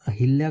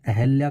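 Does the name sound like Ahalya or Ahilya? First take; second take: Ahilya; Ahalya. First: The second syllable has an 'i' sound. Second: The second syllable has an 'a' sound. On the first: The speaker calls it wrong. "ना कि अहिल्या" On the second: The speaker calls it right. "अहल्या इसमें शुद्ध रूप है।"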